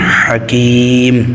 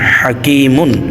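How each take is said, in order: First: The word ends cut short without -un. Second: The word ends with a full -un sound. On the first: The reader stops at the end of the verse. "এখানে থামলে হবে" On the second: The reading continues past this word. "মিম দুই পেশ মুন"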